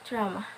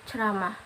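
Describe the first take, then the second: Both takes have the same delivery.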